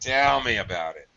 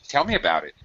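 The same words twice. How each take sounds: First: The vowels are drawn out long. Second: The vowels are kept short. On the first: It is a sarcastic statement. The speaker calls it right. "we tend to really drag our vowels" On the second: It sounds like a question. The speaker calls it wrong. "it would never be short"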